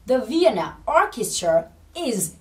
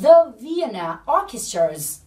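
First: The word 'is' is said in full. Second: The word 'is' is shortened onto the noun. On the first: "Câu đầy đủ của chúng ta sẽ là" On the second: "đã được nói tắt luôn động từ to be với chủ ngữ"

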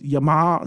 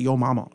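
First: It is said as one clipped word. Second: It is said as two full words. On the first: This is how the speaker's own community says it. "But we, Yama" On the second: This is how Americans say it. "Americans say yo mama"

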